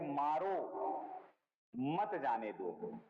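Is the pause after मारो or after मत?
after मारो. The pause comes after मारो.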